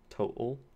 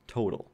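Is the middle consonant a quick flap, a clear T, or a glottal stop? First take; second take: glottal stop; flap. First: The middle consonant is a glottal stop. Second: The middle consonant is a quick flap. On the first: This is a rare pronunciation heard from few speakers. "in which case you'd have the glottal stop" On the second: This is how an American speaker says it. "So in my dialect of English, that is a flap"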